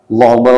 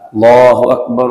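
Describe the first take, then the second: First: It is said quickly without drawing out. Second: It is said slowly and drawn out. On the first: It is the call to stand for prayer. "Kalau qomat itu kan cepat" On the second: It is the call to prayer. "Sunnahnya azan tartil, perlahan-lahan"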